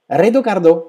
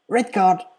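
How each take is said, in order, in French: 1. Une voyelle supplémentaire est ajoutée après chaque mot. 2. Les deux mots ne se terminent par aucune voyelle ajoutée.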